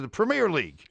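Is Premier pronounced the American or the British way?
American. Premier is pronounced in an American way. The speaker calls it wrong. "As opposed to"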